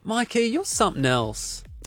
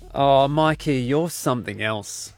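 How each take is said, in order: First: It sounds warm and supportive. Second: It sounds let down and disappointed.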